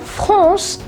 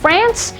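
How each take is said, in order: First: It is said with a French accent. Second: It is said with an English accent.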